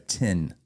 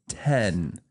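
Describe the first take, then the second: First: The vowel sounds like the one in 'kit'. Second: The vowel sounds like the one in 'bed'. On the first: "Like a tin can?" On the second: "Or ten?"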